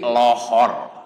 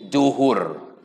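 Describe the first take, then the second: First: The word begins with an l sound. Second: The word begins with a j sound. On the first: This is how Sundanese speakers say it. "Di Sunda hese jadi lohor" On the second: This is how Indonesians say it. "Orang Indonesia susah nyebut zuhur, jadi juhur"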